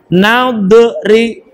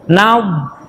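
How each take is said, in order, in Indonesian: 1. Konsonan akhir dilepas dengan kolkolah. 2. Konsonan akhir berhenti bersih tanpa kolkolah. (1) "tidak boleh dibaca naudri" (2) "lidah taruh di belakang gigi atau digigit"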